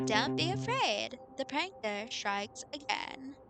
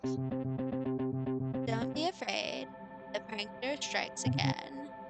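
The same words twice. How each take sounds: First: It is said with more lively feeling. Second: It is said flatly, with little feeling.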